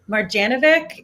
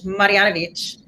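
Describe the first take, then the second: First: The name is pronounced the English way. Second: The name is pronounced the Croatian way. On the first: "in English" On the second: "in uh, Croatian"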